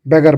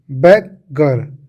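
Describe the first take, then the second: First: Said in the usual way. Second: बेगर slowly broken in two, "beg... gar"; split into parts. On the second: Shown as a demonstration. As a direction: say बेगर as two separate pieces, drawn out. (बेगर को दो हिस्सों में तोड़कर, धीरे-धीरे) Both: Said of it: "बेगर बन गया".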